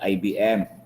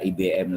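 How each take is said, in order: First: The letters are named the English way. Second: The letters are named the Indonesian way. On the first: The speaker calls it right. "tapi I B M" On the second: The speaker calls it wrong. "Jangan dibaca I B M lagi"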